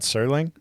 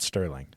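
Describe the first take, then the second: First: The name is said without a t sound. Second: The name is said with a t sound. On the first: The speaker calls it right. "Rod Serling?" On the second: The speaker calls it wrong. "Not Sterling"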